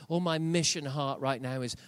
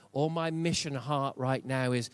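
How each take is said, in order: Both takes have the same delivery.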